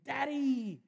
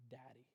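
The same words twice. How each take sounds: First: High, loud happy shout; excited toddler call. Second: Very soft, tender first word; tender recollection. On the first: Toddler greeting dad coming home, excited high call. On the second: Father recalling son's first word, soft and tender. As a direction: breathe the word like a memory. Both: Retold or imitated.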